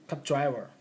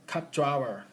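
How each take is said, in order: No difference in how they are said.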